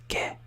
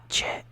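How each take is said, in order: First: The word begins with a K sound. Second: The word begins with a CH sound. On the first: The speaker calls it right. "It's ke" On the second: The speaker calls it wrong. "not che"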